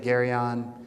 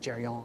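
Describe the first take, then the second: First: It is said with an American pronunciation. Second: It is said with an Italian pronunciation.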